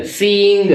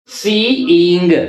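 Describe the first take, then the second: First: Said in the usual way. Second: सीइंग drawn out very slowly; slow model word. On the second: Shown as a demonstration. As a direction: stretch सीइंग for the class. (सीइंग बहुत धीरे खींचकर) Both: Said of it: "ये सी और ये इंग".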